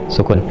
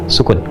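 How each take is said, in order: No difference in how they are said.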